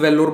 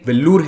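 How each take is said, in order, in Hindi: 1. नाम अंग्रेज़ीकृत, स्पेलिंग पर आधारित तरीके से बोला गया है। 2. नाम स्थानीय तमिल तरीके से बोला गया है। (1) "मैं खुद वेल्लोर बोलता हूं" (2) "ये वेल्लूर है इस जगह का नाम"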